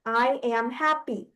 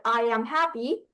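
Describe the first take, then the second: First: "I am happy" in separated syllables. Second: Said in the usual way. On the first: Shown as a demonstration. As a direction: count out "I am happy" one syllable at a time. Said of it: "that's four syllables". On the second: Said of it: "if you say, like".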